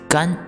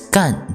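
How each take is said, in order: First: The pitch stays high and level. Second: The pitch falls sharply from high. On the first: It means dry. "first tone" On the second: It means do or work. "fourth tone"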